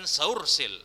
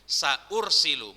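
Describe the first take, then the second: First: Sa runs straight into ursil without a stop. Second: A glottal stop follows sa before ursilu. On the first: The speaker calls it wrong. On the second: The speaker calls it right.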